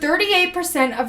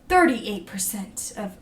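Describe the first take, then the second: First: It is said in a normal speaking voice. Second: It is said in a put-on mysterious voice. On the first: The speaker calls it right. "I'm just gonna talk normally" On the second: The speaker calls it wrong. "I was trying to do that like mysterious voice"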